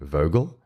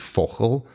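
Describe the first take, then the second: First: The name is said in an American accent. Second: The name is said in a South African accent.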